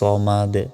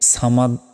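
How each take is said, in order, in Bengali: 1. প্রথম s ধ্বনিটি ভারী ও ভরাট। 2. প্রথম s ধ্বনিটি হালকা ও পাতলা। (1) "সদ জবর হয় স ... তাই বলতে হবে আল্লাহুস সমাদ" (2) "এখানে সামাদ বলা যাবে না, এখানে সিন নাই"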